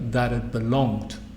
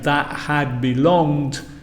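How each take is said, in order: First: The word had is contracted to a 'd sound. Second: The word had is said in full. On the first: "a native speaker would say" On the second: "instead of saying"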